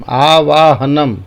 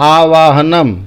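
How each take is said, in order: No difference in how they are said.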